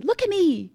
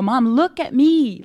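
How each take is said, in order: First: Much higher, softer, hushed repeat of the plea; tender plea to mom. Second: Slow, gentle call for her attention; tender plea to mom. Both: Retold or imitated. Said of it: "and I go".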